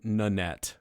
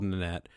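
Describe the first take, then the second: First: The name is said slowly and clearly. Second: The name is said very quickly. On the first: The speaker calls it right. "which I'm saying Nanette, by the way" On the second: The speaker calls it wrong. "I realized I said that really fast"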